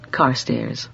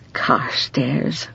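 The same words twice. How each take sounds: First: Said in the usual way. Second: Whispered name, rising softly; soft private whisper of the name. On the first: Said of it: "repeated in a whisper". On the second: Shown as a demonstration. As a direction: breathe the name to herself. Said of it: "said again as a whisper".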